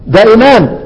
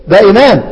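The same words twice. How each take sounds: The two takes are said the same way.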